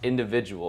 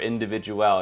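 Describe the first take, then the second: First: The name is said in a plain English way. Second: The name is said in a fancy, foreign-sounding way.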